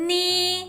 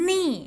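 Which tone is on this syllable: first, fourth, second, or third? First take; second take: first; fourth. First: The pitch stays high and level. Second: The pitch falls sharply from high.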